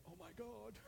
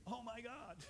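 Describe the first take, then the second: First: Exasperated oh my God. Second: Hopeful prayerful oh my God. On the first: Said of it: "instead of saying". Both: Shown as a demonstration.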